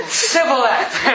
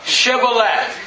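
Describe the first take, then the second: First: Sibboleth with a plain S, through a laugh; fail the password, "Sibboleth" starting on S; mispronunciation. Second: Shibboleth with a clear SH; corrective pronunciation. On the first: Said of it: "What's the password?". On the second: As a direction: correct him with "Shibboleth", hushing first sound. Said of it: "No, no, no". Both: Acted.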